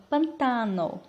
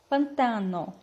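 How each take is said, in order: First: The stress is on the second syllable. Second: The stress is on the second syllable.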